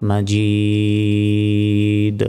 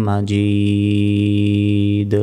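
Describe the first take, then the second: The two takes are said the same way.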